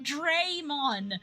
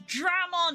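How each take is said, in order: First: The first syllable has an added 'ay' sound. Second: The first syllable is a plain 'dra' sound. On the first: The speaker calls it wrong. "there's no E in there" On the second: The speaker calls it right. "It's Dramon"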